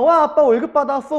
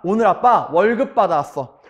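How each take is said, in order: First: Put-on high-pitched child's cheer; excited children. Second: Confident announcement in own pitch; proud father. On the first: Children greeting dad's long-awaited pay, excited. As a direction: cheer like a thrilled kid. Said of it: "애들은 얼마나 신났겠어요". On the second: Retold or imitated. Father telling his children of his pay, proud. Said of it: "오늘만큼은 당당한 아빠".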